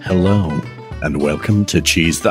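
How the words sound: It is said in a put-on voice.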